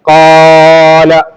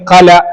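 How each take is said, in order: First: The first vowel is stretched far too long. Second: The first vowel is cut very short. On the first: "അതിനേക്കാൾ അധികരിപ്പിക്കാനോ ചുരുക്കാനോ പാടില്ല. ഖാല, അങ്ങനെ ഇത് വായിക്കാൻ പറ്റൂല" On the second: "അല്ലെങ്കിൽ ഖല, അങ്ങനെയും പറ്റൂല"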